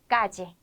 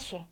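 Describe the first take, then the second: First: The middle consonant sounds like a j. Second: The middle consonant sounds like sh. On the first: "지로 발음을 하기도 하고" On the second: "시로 발음하기도 합니다"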